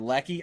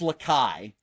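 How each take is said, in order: First: The name is said like 'lecky'. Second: The name is said like 'la-kai'. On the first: The speaker calls it wrong. "or Lecky" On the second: The speaker calls it right. "I think it's Lakai"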